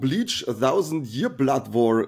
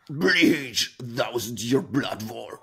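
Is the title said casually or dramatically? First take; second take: casually; dramatically. First: The title is said casually in passing. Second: The title is said with deep dramatic intensity.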